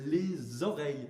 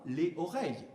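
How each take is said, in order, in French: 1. Le s de 'les' se lie à 'oreilles'. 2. 'Les' et 'oreilles' se disent sans liaison. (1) "comme quand je dis" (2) "Je ne dis pas"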